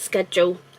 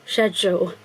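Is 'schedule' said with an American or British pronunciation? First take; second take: American; British. First: It is said with an American pronunciation. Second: It is said with a British pronunciation. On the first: "So in my head it's it's schedule" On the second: "Everyone else here in the U K, in Britain, says schedule"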